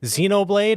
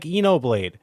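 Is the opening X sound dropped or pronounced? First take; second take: pronounced; dropped. First: The word begins with its X sound. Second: The word begins without its X sound.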